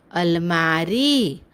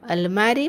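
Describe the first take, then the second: First: अलमारी drawn out on मा and री; slow teaching demo of अलमारी; long vowels. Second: Said in the usual way. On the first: Shown as a demonstration. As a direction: hold the final ee of अलमारी long. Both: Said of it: "शब्द का उच्चारण थोड़ा लंबा होता है".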